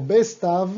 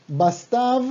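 First: BESTAV with an E in the first syllable; Bestav, first vowel E as in Spanish; second variant, with E. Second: BASTAV with an open A in the first syllable; Bastav, first vowel A as in Spanish; first variant, with A. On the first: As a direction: say "Bestav", BES and then TAV. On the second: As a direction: say "Bastav", BAS and then TAV. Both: Shown as a demonstration. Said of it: "o Bestav".

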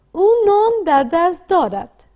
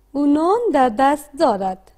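First: Slow read-aloud model. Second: Said in the usual way. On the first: Shown as a demonstration. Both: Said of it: "با صدای بلند بخوانید".

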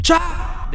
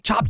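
First: Chop! shouted high and loud like a blade; punchy chop sound. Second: Said in the usual way. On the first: Shown as a demonstration. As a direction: snap out chop! as a sound effect. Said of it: "they chop, chop!".

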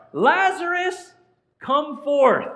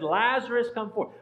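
First: High, loud, drawn-out summons; slow, ringing command; commanding call. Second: Said in the usual way. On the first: Acted. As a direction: call the dead man out of the tomb. Acting out Jesus raising Lazarus.

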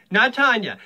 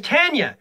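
First: "Tanya" with the second vowel, stressed; Tanya said the other way. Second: تانيا بنطق أول; Tanya said one way. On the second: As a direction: say "Tanya" the first way. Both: Shown as a demonstration.

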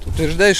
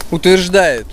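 First: Said in the usual way. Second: Утверждает said louder and higher, falling; emphatic. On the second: Real, not acted. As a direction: stress утверждает with a loud falling hit.

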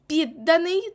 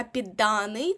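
First: «Підданий» as PID-danyi, loud high start; stress on first syllable. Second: «підданий» as pid-DA-nyi; stress on second syllable. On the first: Teacher showing the participle Підданий, first-syllable stress. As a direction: punch ПІД in «Підданий». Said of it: "це дієприкметник". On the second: Teacher showing the noun підданий, second-syllable stress. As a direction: lengthen and hit ДА in «підданий». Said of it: "наголос буде падати на другому складі". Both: Shown as a demonstration.

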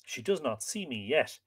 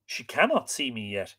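First: Soft, understated sorrow; subdued, wistful thought; mournful. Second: "cannot" picked out, the rest falling away; amending, self-reproachful. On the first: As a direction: think it aloud, quietly mournful. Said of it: "he thought mournfully". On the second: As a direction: stress on "cannot", lifted in pitch. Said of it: "he amended, reproaching himself". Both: A narrator's reading.

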